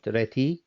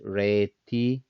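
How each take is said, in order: First: The vowel is kept short. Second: The vowel is held long. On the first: The speaker calls it wrong. "not reti" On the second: The speaker calls it right. "Why I say re on this, reti ... they are longer when we read them"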